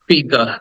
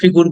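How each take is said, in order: First: The second vowel sounds like 'uh'. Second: The second vowel sounds like 'oo'. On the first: The speaker calls it right. "এটা হচ্ছে ফিগার" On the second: The speaker calls it wrong. "ভুল উচ্চারণ করলেও করতে পারি"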